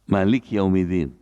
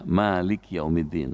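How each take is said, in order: First: The vowel after the m is short. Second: The vowel after the m is long. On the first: The speaker calls it wrong. "boleh dibaca, mimnya pendek" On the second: The speaker calls it right. "Mimnya panjang karena ada malif"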